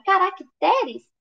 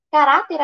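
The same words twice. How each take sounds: First: Slow "caracteres" leaning on "te"; stress on TE. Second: "Caráter" with a louder middle syllable "rá"; stress on RÁ. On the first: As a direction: hit "te" in "caracteres". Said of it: "É o T". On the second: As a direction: hit "rá" in "Caráter". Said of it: "a sílaba tônica dela é esse irá". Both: Shown as a demonstration.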